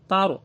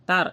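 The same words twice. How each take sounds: First: The r is said heavy and thick. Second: The r is said light and plain. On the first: The speaker calls it right. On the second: The speaker calls it wrong.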